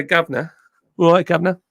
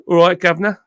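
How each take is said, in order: First: Put-on "Governor" said "guvnuh", the older southern English way; old southern English accent. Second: A light southern English "All right, governor" with the r dropped: "guvnuh"; southern English accent. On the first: Streamer showing chat his old southern English accent. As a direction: show the southern English accent he once had. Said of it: "my accent used to be a bit more like that". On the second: Streamer asked by chat to say governor, southern English accent. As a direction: toss off a cheery southern English greeting. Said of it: "can you say governor again?".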